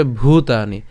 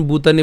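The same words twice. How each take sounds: First: "ভূতানি" with a strong aspirated bh; emphatic bhoo opening "ভূতানি"; forceful bh. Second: "বুতানি" with a plain unaspirated b; breathless b opening "বুতানি"; common mispronunciation. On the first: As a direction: push breath into the bh of "ভূতানি". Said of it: "একটু অবশ্যই জোর দিয়ে উচ্চারণ". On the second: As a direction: say "বুতানি" with b in place of bh. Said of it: "অনেকে উচ্চারণ বুতানি বলে ফেলেন". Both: Shown as a demonstration.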